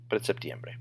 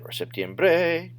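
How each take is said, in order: First: The stress falls on the second-to-last syllable. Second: The stress falls away from the second-to-last syllable. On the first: The speaker calls it right. "your voice always goes up in the next to last syllable" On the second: The speaker calls it wrong. "Otherwise, it could be"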